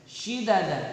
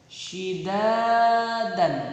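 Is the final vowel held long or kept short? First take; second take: short; long. First: All the vowels are kept short. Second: A vowel is held for two beats. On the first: "tidak ada alifnya maka dibaca pendek semua" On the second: "ada alifnya berarti harus dibaca panjang"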